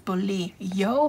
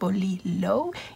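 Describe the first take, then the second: First: The double L is said as a Y sound. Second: The double L is said as an L sound. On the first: The speaker calls it right. "it is bolillo" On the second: The speaker calls it wrong. "So it's not bolillo"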